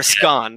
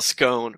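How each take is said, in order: First: "scone" with a short open o; British short-o pronunciation. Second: "scone" with a long o; long-o pronunciation. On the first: Podcaster showing how Brits pronounce it, short-o scone. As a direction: say "scone" to rhyme with gone. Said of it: "They would pronounce it scone". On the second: Podcaster naming the British word for biscuit, long-o scone. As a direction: say "scone" to rhyme with bone. They would pronounce it scone. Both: Shown as a demonstration.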